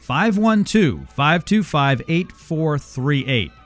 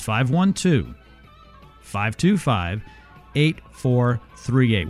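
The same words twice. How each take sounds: First: The number is read at normal speed. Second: The number is read more slowly.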